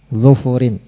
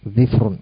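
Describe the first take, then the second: First: Both syllables of the stem have a u vowel. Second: The stem has i, with no vowel after f. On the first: "dengan mendhamah huruf dhadnya dan huruf fa-nya" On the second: "mengkasrah huruf dhad dan mensukun huruf fa menjadi dhifrun"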